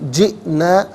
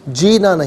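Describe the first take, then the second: First: The word has a sharp glottal catch mid-word. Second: The word flows without a glottal catch. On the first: The speaker calls it right. "हमजा साकिन झटके के साथ पढ़ेंगे" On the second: The speaker calls it wrong. "नहीं"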